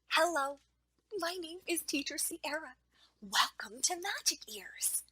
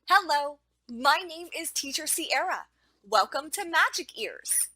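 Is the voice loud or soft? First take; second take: soft; loud. First: It is said in a soft, quiet voice. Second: It is said in a loud, full voice. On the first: The speaker calls it wrong. "Some examples of using a soft voice include whispering. Here is a quick example of what not to do" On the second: The speaker calls it right. "Here is an example of a proper voice in the classroom"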